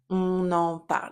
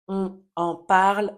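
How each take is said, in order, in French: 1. Le n final se lie à la voyelle suivante. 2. Les mots sont prononcés séparément, sans liaison. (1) "on va lier les éléments entre eux"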